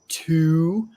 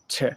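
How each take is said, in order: First: The word has a full, clear vowel. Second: The word has a short, weakened vowel. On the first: "we don't usually say to" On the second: "We almost always say t"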